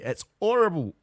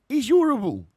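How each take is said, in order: First: Lightly attempted Cockney, pitched up; a first go at Cockney with dropped h; Cockney accent. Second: High, loud, hammed-up Cockney; bad Cockney accent. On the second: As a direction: push the mock Cockney right over the top. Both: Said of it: "I can't do a Cockney accent".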